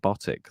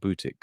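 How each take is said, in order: First: The name is said the anglicized way. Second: The name is said the Dutch way. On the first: This is the speaker's habitual way of saying it. "I got so used to saying Botic" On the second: This is how Dutch speakers say the name. "he heard a Dutch person call him Butik"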